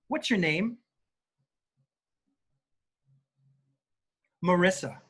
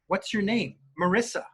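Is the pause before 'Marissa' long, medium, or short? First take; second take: long; short. First: Marissa follows after about a five-second pause. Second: Marissa follows the question with no pause.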